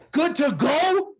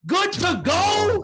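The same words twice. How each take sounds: First: Very high, slow incredulous repeat; outraged echo. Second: Even higher, slower, more incredulous; outraged echo, higher. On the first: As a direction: throw his words back at him in disbelief. Sergeant major mocking the reply. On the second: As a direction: push the disbelief to the top. Sergeant major repeats even higher. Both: Retold or imitated.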